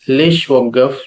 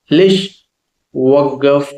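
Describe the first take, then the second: First: Said in the usual way. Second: "లేష్" rising, a pause, then "వగ్గఫ్"; word by word. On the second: Shown as a demonstration. Teacher introducing a new Arabic question to learners, word by word. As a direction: split "లేష్ వగ్గఫ్" in two, lifting "లేష్".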